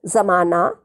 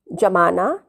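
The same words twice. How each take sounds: First: जमाना with ज़ as a z, like "zamana"; nukta z sound. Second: जमाना with a plain ज, like "jamana"; plain j sound. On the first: Teacher repeating जमाना with a z sound. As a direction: begin जमाना on a buzzing z. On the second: Teacher repeating जमाना with a plain j. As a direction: begin जमाना on a hard j. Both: Shown as a demonstration. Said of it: "मैं इनके अर्थ दोबारा बोल रही हूँ".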